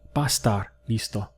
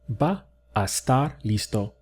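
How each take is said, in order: First: Va and a blend into one syllable. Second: Va and a are said as two syllables. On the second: "There you can hear that I separated it"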